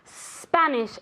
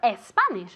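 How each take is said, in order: First: The word starts directly with the s. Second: A vowel sound comes before the s. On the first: The speaker calls it right. "like a snake" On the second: The speaker calls it wrong. "it's never es Spanish"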